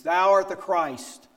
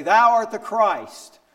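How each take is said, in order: First: High, slow and louder, a firm confession; bold proclamation. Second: Loud, high, slow declaration; bold proclamation. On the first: Peter answering Jesus, proclaiming it slowly. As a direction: declare it with conviction. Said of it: "Peter says". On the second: Peter standing up at Supper, declaring it loudly. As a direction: ring it out like a confession of faith. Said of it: "And he'd say". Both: Retold or imitated.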